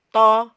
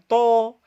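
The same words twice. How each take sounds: First: The vowel is open, with the jaw lowered. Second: The vowel is rounded, with lips pushed forward. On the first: The speaker calls it right. "dengan cara menurunkan rahang" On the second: The speaker calls it wrong. "bukan to, bukan mengumpulkan kedua bibir ke depan"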